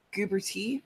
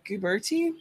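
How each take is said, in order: First: "Guberty" with lighter middle syllable, questioning rise; tentative pronunciation. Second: "Guberty" with weightier middle syllable, questioning rise; alternative pronunciation. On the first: Streamer guessing an indie author's surname, tentative first pronunciation. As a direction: try "Guberty" as GOO-ber-tee, unsure. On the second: Streamer offering another guess at the author's surname, alternative pronunciation. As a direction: try "Guberty" as goo-BER-tee, unsure. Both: Shown as a demonstration. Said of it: "I'm not sure how it's pronounced".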